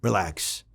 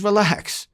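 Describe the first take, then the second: First: Hushed relax. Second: Sharp relax. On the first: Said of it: "he says to me". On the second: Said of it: "He says". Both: Retold or imitated.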